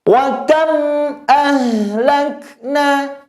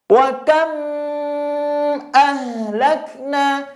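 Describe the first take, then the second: First: High chanted WA KAM, mim released without holding; clear mim. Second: Chanted KAM with the M hummed on too long; wrong take, KAM drawn out in a long hum; holding the mim. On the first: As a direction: recite it high and slow, KAM closed clearly and moved on from. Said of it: "Bagaimana jelas itu? Perhatikan Ustadz". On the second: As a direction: linger on the M of KAM before ahlakna. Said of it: "Kalau baca seperti itu namanya mena-, menahan mimnya". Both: Shown as a demonstration.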